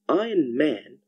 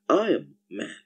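First: The word iron ends with a clear n sound. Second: The word iron ends with an m sound.

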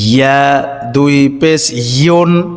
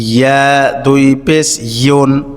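No difference in how they are said.

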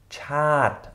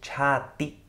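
First: The word ends cleanly on the t sound. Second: An extra i vowel follows the final t. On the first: The speaker calls it right. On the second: The speaker calls it wrong.

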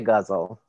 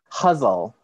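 First: The word begins with a hard g sound. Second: The word begins with an h sound. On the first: This is the speaker's own coarse way of saying it. "I'm from Detroit, I say guzzle" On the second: This is how some other people say it. "some people pronounce it huzzle"

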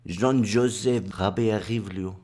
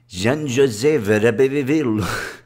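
First: The name is said with a French accent. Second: The name is said with an Italian accent. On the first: "the way the French wants it to be pronounced" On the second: "as the Italians would have pronounced it"

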